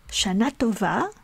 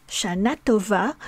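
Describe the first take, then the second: The two takes are said the same way.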